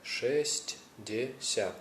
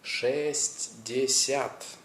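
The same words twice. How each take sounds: First: Шестьдесят said slowly but joined, falling at the end; slow whole word. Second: Шестьдесят stretched out very slowly, each part separate; very slow Russian. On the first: Teacher repeating the number as a whole, slowly. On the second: Teacher breaking a number into parts, very slow. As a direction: drag Шестьдесят out syllable by syllable. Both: Shown as a demonstration. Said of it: "That's three and a half".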